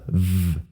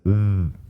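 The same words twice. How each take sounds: First: The upper teeth touch the lower lip. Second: Both lips come close without touching. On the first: The speaker calls it wrong. "it's not a V" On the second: The speaker calls it right. "it's a V"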